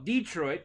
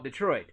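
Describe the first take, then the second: First: "Detroit" with a stressed DEE first; Indiana pronunciation. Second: Said in the usual way. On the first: Shown as a demonstration. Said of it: "in Indiana". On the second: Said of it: "in Michigan".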